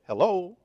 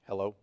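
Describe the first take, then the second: First: It is said in a lilting, musical tune. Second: It is said dull and flat, sounding broken.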